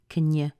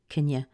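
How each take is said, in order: Both takes have the same delivery.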